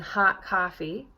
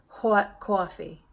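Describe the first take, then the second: First: The vowels are said with open lips. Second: The vowels are said with rounded lips. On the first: "see how open my lips are" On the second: "You might round those lips"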